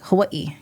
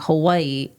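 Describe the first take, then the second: First: A catch in the throat splits the last vowels. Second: The last vowels run together without a break. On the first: The speaker calls it right. "you separate like Hawaii, kind of like a hiccup" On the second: The speaker calls it wrong. "instead of it reading like Hawaii"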